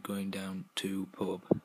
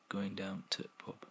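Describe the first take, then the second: First: The word 'the' is dropped entirely. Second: 'The' is dropped and 'to' is clipped short. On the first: "shortened to" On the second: "and then finally to"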